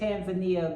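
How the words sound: It is said the way Americans pronounce it. "we say Tanzania"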